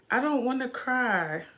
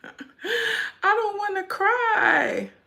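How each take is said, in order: First: Said in the usual way. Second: High, drawn-out whiny mock crying; hammed-up, long high whine; mock wail. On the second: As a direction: wail it slowly like a pretend crybaby. Fears crying, wails it playfully.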